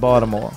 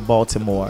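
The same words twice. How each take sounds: First: The t sound is softened or dropped. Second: The t sound is clearly pronounced. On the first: The speaker is a local. The speaker calls it right. "we don't pronounce the T. ... Our T's become D's" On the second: The speaker is not from there. The speaker calls it wrong. "We don't say Baltimore"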